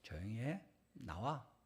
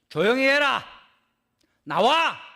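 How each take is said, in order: First: It is said quietly, without shouting. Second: It is shouted loudly.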